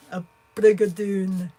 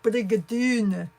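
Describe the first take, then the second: First: Scottish accent. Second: Brigadoon with a mock Scottish lilt, slow and louder; Scottish accent. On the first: Trying again for the chat, a bolder mock Scottish accent. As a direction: belt out A brigadoon like a Scot. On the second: Asked to say it Scottishly, a hammed-up Scottish accent. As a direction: roll out Brigadoon the Scottish way, drawn out. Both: Shown as a demonstration. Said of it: "so you need to say it Scottishly".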